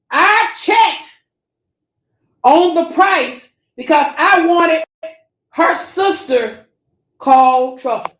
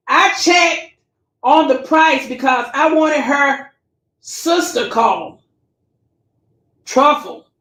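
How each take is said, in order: First: Slow, pointed reading. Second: Said in the usual way. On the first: Shown as a demonstration. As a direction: lean on every word, as if catching her out. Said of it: "Now listen close". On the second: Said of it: "I'm gonna read it real slow".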